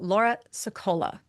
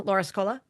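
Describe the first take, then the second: First: A short pause separates the two names. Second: The two names run together without a pause. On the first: The speaker calls it right. "have that little pause" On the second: The speaker calls it wrong. "all one word"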